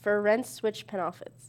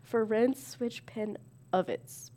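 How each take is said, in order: First: "penalties" sounded as pen-off-its. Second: Slow, with "of" pronounced uv; "of" not "off". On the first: Real, not acted. Player misreading the nonsense card, "penalties" as pen-off-its. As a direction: read "penalties" with an "off" in the middle. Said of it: "You're reading it as off". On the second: Shown as a demonstration. Player corrected by friend, slowly sounding "of" as uv. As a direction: separate "pen of its", saying "of" as uv. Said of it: "Say it as of".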